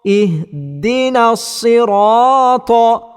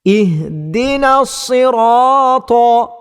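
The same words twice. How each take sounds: No difference in how they are said.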